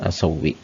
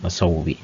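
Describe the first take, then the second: The two takes are said the same way.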